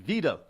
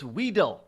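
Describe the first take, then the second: First: The name begins with a V sound. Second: The name begins with a W sound. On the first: The speaker calls it right. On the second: The speaker calls it wrong.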